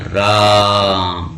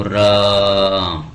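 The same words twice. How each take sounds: First: Said in the usual way. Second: राम with the आ stretched very long; राम sung out slowly, aa held three times as long; drawn-out pluta vowel. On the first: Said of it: "जैसे अपन बोलते हैं राम". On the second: Shown as a demonstration. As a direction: hold the आ of राम, like a dying man's call. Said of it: "तो क्या बोलता है वो".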